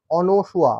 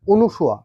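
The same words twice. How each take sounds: First: অনসুয়া as ɔ-no-shua, open first vowel; correct pronunciation. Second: অনুসুয়া as o-nu-shua, closed first vowel; common mispronunciation. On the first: Teacher recapping for students, correct অনসুয়া with "no". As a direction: say অনসুয়া with "no", falling at the end. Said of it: "উচ্চারণটা কি বললাম?". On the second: Teacher showing what we usually say, mistaken অনুসুয়া with "nu". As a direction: say অনুসুয়া with "nu" in the middle. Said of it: "আমরা কিন্তু উচ্চারণ করি". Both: Shown as a demonstration.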